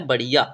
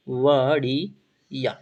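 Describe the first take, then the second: First: Said in the usual way. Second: बढ़िया drawn out syllable by syllable; slowly broken up. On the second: Shown as a demonstration. Teacher repeating the Hindi meaning for students, slowly broken up. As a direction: stretch and split the word for learners.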